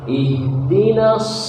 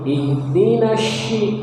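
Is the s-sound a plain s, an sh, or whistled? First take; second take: whistled s; sh sound. First: The consonant is a heavy, whistling s sound. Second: The consonant is pronounced as an sh sound. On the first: The speaker calls it right. "seperti orang bersuil" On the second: The speaker calls it wrong. "Jangan ke shin. tidak begitu"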